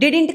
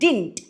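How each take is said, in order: First: The word is said with two syllables. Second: The word is said with one syllable. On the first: The speaker calls it wrong. "డిడింట్ కాదు" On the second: The speaker calls it right.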